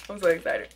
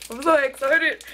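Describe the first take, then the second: First: Said in the usual way. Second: Excited. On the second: Real, not acted. Trying a new treat on camera.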